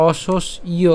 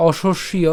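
First: "অশস্য" split as o, shosh, iyo; "অশস্য" with each part separated; broken into syllables. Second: "অশস্য" as oshosh-shiyo; "অশস্য" ending in iyo; joined pronunciation. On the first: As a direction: break "অশস্য" right down for learners. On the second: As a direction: say "অশস্য" as one connected word. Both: Shown as a demonstration. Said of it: "আমি যদি একদম ভেঙে বলি".

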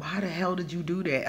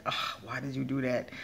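First: Mildly mad at oneself; retold self-scolding. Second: Softer, resigned self-scolding; milder self-reproach. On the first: Speaker recalling scolding herself after a mistake, mildly angry. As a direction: imitate old exasperation without raising the voice. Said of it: "when I would get mad". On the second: Retold or imitated. Speaker retelling how she still questions herself, mildly exasperated. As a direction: lightly chide yourself under an "ugh". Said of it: "now I still be like".

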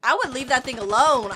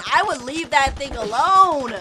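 First: Said in the usual way. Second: Slow, stretched warning with "alone" drawn out; emphatic repeat. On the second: Real, not acted. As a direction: repeat it deliberately, lengthening "alone".

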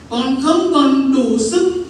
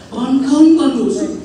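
First: Slow anguished cry. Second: Anguished cry. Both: Retold or imitated. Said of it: "Tôi nói".

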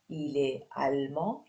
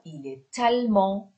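First: Said in the usual way. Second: "il est allemand" with the t of est sounded into allemand; with liaison. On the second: Shown as a demonstration. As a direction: link "est allemand" as "è-talmand".

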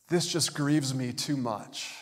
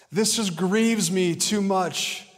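First: Slow, understated grieving complaint; aggrieved, drawn-out words at near-usual pitch; mildly grieved. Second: High, slow, put-upon wail; hammed-up, self-pitying lament, pitched high; acted grief. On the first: Acted. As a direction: say it slowly, as a restrained show of grievance. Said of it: "it's this response of someone going". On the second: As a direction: make a big, drawn-out show of being grieved. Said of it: "let me read it in that language".

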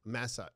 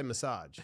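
First: "Massage" said MASS-ahj; "Massage" tried with an open first A; other way of massage. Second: "massage" said muh-SAHJ; "massage" stressed on the second syllable; own way of massage. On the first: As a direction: say "Massage" with a full "mass" at the start. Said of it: "do I say massage or massage". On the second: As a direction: say "massage" with a weak first syllable, long "sahj". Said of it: "I say massage". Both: Shown as a demonstration.

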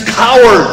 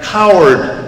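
First: Higher mock-angry shout; angry scream. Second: Milder echoed call; echo coming back. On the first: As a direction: hurl it at the mountains, storyteller style. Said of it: "Angered at the response, he screams". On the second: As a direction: repeat the shout as a distant echo. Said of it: "coming back". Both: A narrator's reading.

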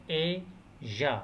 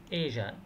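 First: "Asia" broken into two separate syllables; "Asia" in two slow, detached beats; split into syllables. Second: Said in the usual way. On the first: Shown as a demonstration. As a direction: say "Asia" syllable by syllable, pausing in the middle. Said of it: "المقطعين". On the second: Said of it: "two syllables".

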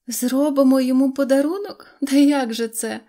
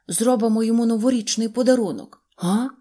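First: Higher, louder incredulous echo of "Зробимо"; mocking laughter. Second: Said in the usual way. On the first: A narrator's reading. Dolls laughing at the dog's idea, higher and louder. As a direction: repeat "Зробимо" rising and scoffing like giggling dolls. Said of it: "зареготали ляльки". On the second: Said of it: "вів далі собачка".

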